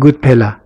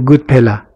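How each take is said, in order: First: A vowel is heard between p and l. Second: The same.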